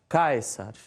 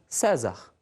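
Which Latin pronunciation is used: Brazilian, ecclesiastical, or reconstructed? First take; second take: reconstructed; Brazilian. First: It uses the reconstructed classical Latin pronunciation. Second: It uses a Brazilian Portuguese pronunciation of Latin. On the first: "na pronúncia reconstituída" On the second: "na pronúncia regional"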